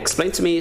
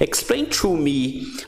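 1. A palavra 'to' é reduzida e falada rapidamente. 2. A palavra 'to' é pronunciada de forma completa e com cuidado. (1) "bem mais rápido de falar, muito mais legal" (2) "como é que ficaria feio eu falar"

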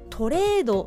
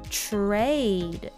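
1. Tの後には'o'の母音が続きます。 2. TはすぐにRにつながります。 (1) "トレードのとではなく" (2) "ではなくTrade"

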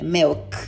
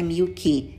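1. A palavra termina limpa, só com o som de K. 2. A palavra termina com uma vogal extra depois do K. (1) "O último som é um K" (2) "não é milk"

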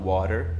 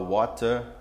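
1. Sotaque americano, o t soa como r. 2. Sotaque britânico, o t não soa como r. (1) "o inglês americano, eles falam water" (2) "E o mais britânico eles vão falar water"

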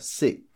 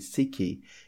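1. A palavra para bruscamente no k final. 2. Uma vogal extra 'ee' vem depois do k final. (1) "a pronúncia seca é importante, ó" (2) "Essa pronúncia é incorreta"

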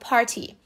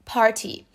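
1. O T do meio é um T claro. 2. O T do meio é um T claro.

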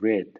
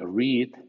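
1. La vocal es un sonido eh corto. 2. La vocal es un sonido ee largo.

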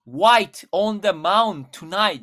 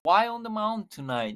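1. 'white'の最後のtは発音します。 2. 'white'の最後のtは落とします。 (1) "日本語で英語で喋るとしたら" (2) "最初のt が消える"

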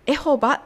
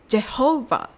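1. この単語は普通の母音で始まります。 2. この単語は J の音で始まります。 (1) "エホバではなく、" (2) "Jehovah です。"

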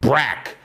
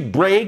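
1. A vogal é um som de 'e' aberto e curto. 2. A vogal é um 'ay' longo. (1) "muda para brack" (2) "o som de break"

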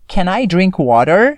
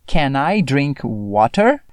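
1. É falado com sotaque americano. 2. É falado com sotaque britânico. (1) "uma pronúncia mais americana" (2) "aqui nós temos um inglesinho britânico"

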